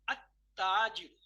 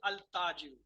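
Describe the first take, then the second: First: No l sound; the t is doubled. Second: An l sound is heard before the t. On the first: The speaker calls it right. "I'll say at-tajiru. Lam is silent" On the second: The speaker calls it wrong. "I'm not saying al-tajiru"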